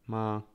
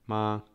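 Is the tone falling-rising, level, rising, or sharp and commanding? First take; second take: level; level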